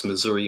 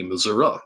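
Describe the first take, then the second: First: Said in the usual way. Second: Missouri ending in "uh" instead of "ee"; regional Missouri pronunciation. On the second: Retold or imitated. Imitating father's family from the South, Missouri said "Missour-uh". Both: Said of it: "they even pronounce Missouri".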